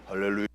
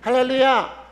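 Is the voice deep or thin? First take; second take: deep; thin. First: The voice is low and deep. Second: The voice is high and thin. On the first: "저음을" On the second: "목소리가 굉장히 가는 분들이 있어요"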